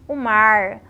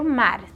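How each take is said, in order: First: The final r is curled back, American-like. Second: The final r is soft and weak. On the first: "o R rotativo do interior do Sudeste e dos norte-americanos" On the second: "o R branco do Sudeste"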